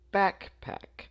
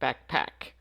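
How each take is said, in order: First: The stress is on the first syllable. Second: The stress is on the second syllable.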